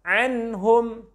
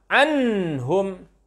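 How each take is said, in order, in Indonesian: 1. Bunyi n diucapkan jelas tanpa efek tambahan. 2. Bunyi n ditahan dan dipanjangkan sebelum lanjut. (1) "yang benar" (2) "Tidak tertahan"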